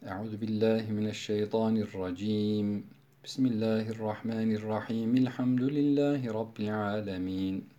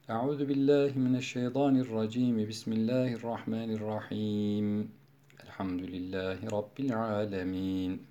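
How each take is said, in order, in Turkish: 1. Yalnızca birinci ifadeden sonra durak var. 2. Yalnızca ikinci ifadeden sonra durak var. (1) "Kat'ul evvel vaslu sani yapıyorum" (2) "Sure başında vaslul evvel kat'ul sani"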